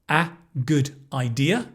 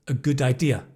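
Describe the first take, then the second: First: The words are said separately. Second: The words run together without a break. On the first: "You're expecting to hear" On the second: "Actually, you hear"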